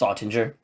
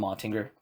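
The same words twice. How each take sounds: First: "Ottinger" with a soft g, as in "ginger"; corrected pronunciation. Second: "Ottinger" with a hard g, as in "finger"; mistaken pronunciation. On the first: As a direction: say "Ottinger" like OT-in-jer. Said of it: "It's Ottinger". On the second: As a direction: say "Ottinger" like OT-ing-ger. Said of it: "I keep calling him Ottinger". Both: Shown as a demonstration.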